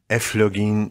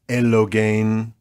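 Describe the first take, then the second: First: It uses a modern Greek pronunciation. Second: It uses an ancient Greek pronunciation. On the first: "if you want to speak modern Greek or church Greek" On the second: "to speak well in Greek"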